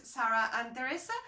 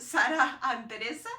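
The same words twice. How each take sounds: First: The names Sarah and Teresa said with an English accent and English r. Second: Sarah and Teresa said the Spanish way, with a tapped r; native pronunciation. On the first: Real, not acted. Vlogger names her nieces in an English accent. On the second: Shown as a demonstration. Vlogger corrects her nieces' names to Spanish pronunciation. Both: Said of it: "saying their names with an English accent".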